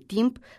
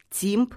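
First: The t is hard, without palatal softening. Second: The t is softened with a palatal glide. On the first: The speaker calls it right. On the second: The speaker calls it wrong.

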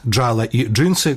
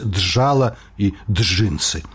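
First: The dzh is said as one single sound. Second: The dzh is split into two separate sounds. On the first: The speaker calls it right. "Замест" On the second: The speaker calls it wrong. "вымаўляюць няправільна ў два гукі"

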